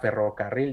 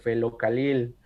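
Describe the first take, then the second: First: The word is said with R sounds. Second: The R sounds are replaced by L sounds. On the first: "cuando le dices que diga ferrocarril" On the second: "dice felocalil"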